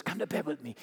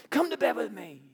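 First: A hushed tempting whisper-like offer; seductive invitation. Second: Higher, pushier come-on; pleading seductress pushing harder; insistent repeat. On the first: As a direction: softly draw him in. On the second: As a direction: press him again, more eagerly. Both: Acted. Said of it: "grabs him by the coat and says".

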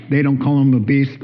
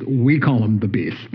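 First: "They" lifted with a rising end on "him"; stress on they. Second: "We" punched, falling to a low end; stress on we. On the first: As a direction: lean on "They" against "We". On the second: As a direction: hit "We" hard, then drop. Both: Shown as a demonstration.

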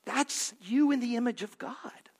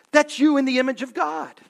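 First: Hushed, intimate whisper. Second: Louder, faster, hammered home; loud proclamation. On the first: Pastor whispering to the congregation about God's image. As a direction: breathe it to the congregation. Pastor softens to tell listeners. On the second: Pastor proclaiming to the congregation, loud and fast. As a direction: declare it boldly. Pastor repeats the line with force. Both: Acted.

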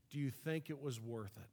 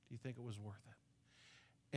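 First: Said in the usual way. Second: Much softer, slower second asking; a near-whispered, weighty echo of the question; quiet repeat. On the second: Shown as a demonstration. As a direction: let the question sink in, hushed and slow.

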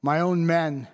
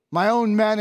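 First: Said in the usual way. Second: "my own men" repeated with a heavier "own"; stress on own. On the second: Acted. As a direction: lean into "own" the second time. Repeated for emphasis, second take.

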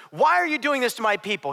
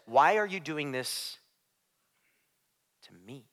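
First: Said in the usual way. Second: Low, soft, slow question with a long pause before "me"; hushed question. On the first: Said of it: "And he doesn't say". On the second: Retold or imitated. Preacher voices Jesus confronting Saul, low and hushed. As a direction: let "to me" sink almost to nothing. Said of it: "He says".

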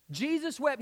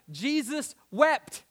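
First: Said in the usual way. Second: Drawn out slowly. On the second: Shown as a demonstration. Preacher lingering on the verse, drawn out. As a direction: stretch Jesus wept out, very slow. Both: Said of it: "listen to these next two words".

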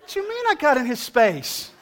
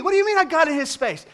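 First: Indignant disbelief. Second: Higher, louder incredulous "What do you mean I got in his space?"; indignant repeat. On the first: Indignant reply to dog owner. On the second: Repeating his question louder to the dog owner, incredulous. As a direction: ask it again, more outraged. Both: Retold or imitated.

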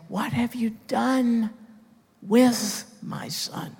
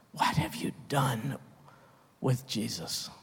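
First: A lightly voiced God, high and slow on "with my Son"; voicing God. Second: Soft, probing question; hushed question. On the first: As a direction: ask it as the Father would, slowly. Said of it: "and he's going to say". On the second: Real, not acted. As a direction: drop to a near hush to confront them.

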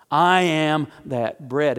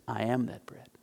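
First: "I am that bread" said slowly, each word weighted; slow emphatic repeat. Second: A low, soft statement; quiet first take. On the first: Jesus repeating to the crowd, slow and emphatic. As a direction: hammer it home, slowly. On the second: Jesus answering the crowd, low and soft. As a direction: say it quietly, almost to yourself. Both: Acted. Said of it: "And Jesus says".

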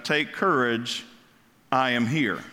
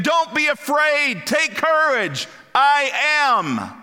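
First: Said in the usual way. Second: High, loud, slow proclamation of courage; proclaiming Jesus. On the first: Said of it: "not the correct translation". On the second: Acted. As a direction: boom out Jesus's reassurance, drawn out. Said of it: "as if Jesus is saying".

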